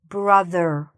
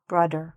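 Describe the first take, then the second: First: The middle consonant is a soft th sound. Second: The middle consonant sounds like a d. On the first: The speaker calls it right. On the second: The speaker calls it wrong. "not brother"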